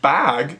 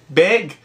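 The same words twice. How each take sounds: First: The vowel in 'bag' sounds standard American. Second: The vowel in 'bag' sounds Minnesotan. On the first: The speaker calls it wrong. "It's not bag" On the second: The speaker calls it right. "It's bag"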